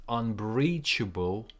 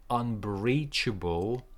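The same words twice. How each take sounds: The two takes are said the same way.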